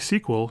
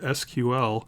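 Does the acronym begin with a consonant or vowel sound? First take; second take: consonant; vowel. First: It starts with a consonant sound, as one word. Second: It starts with a vowel sound, letter by letter. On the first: "in some cases it begins with a consonant" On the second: "in some cases it begins with a vowel sound"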